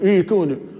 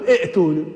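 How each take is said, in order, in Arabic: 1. الهمزة الثانية تُلَيَّن وتُنطق ياءً. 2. تُنطق الهمزتان متتاليتين. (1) "يقول ائتوني" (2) "لا أقول ائتوني، لا تجمع بين الهمزتين"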